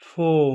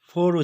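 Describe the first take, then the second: First: It is said in a British accent. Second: It is said in a non-British accent. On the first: The speaker calls it right. "British অ্যাকসেন্টে এর সঠিক উচ্চারণটি হলো" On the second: The speaker calls it wrong. "আমরা সবাই ফোর উচ্চারণ করে থাকি"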